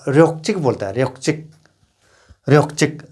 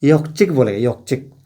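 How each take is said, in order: First: र्योकचिक with a clear r; with the r sound. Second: योकचिक, the r left out; dropping the r. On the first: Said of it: "र्योकचिक को जो र न". (र के साथ र्योकचिक) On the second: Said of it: "रो नहीं बोलने वाला party". (र छोड़कर योकचिक) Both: Shown as a demonstration.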